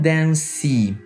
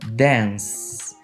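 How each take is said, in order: First: The word ends with an added vowel sound. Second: The word ends in an S sound. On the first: The speaker calls it wrong. "Eu não estou falando dance" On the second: The speaker calls it right. "Ambos os verbos têm som de S"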